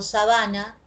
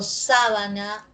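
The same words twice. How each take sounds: First: "sabana" stressed on BA, sa-BA-na; stress on middle syllable. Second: "sábana" stressed on SÁ, the first syllable. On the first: Teacher contrasting accents for students, "sabana" stressed mid-word. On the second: Teacher contrasting accents for students, "sábana" stressed first. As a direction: hit the opening of "sábana": SÁ-ba-na. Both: Shown as a demonstration. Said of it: "aquí observamos oposición del acento".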